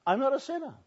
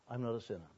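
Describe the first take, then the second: First: I'm not a sinner, much higher and insistent; indignant protest. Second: Mocking echo. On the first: Retold or imitated. Woman insisting to the pastor, high mock indignant. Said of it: "she told me". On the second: Pastor echoing the woman's claim, soft mocking. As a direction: quietly parrot "I'm not a sinner". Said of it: "she went on at great length".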